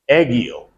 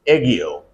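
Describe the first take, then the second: First: The g is hard, as in go. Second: The g is hard, as in go.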